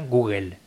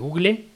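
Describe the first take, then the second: First: The ending is said with L and E swapped, 'el'. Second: The ending is read as written, 'le'. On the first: "se pronuncia Google, se invierten las E y la L" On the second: "Se escribe Google"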